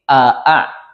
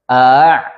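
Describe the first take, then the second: First: Both hamzas are pronounced clearly and distinctly. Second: The second hamza is softened and drawn out. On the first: "Kalau duanya ditahqiq" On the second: "A ditashil"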